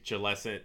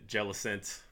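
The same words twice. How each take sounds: First: "Jellicent" as juh-LESS-ent; trying a pronunciation. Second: "Jellicent" softly, as JELL-ih-sent; trying another pronunciation. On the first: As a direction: put the stress on LESS in "Jellicent". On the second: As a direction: stress the first syllable of "Jellicent". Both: Shown as a demonstration. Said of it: "I definitely say Jellicent".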